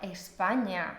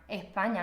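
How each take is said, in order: First: The s sound before the p is clearly pronounced. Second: The s sound before the p is dropped. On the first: "yo no digo España" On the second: "no pronuncio la S"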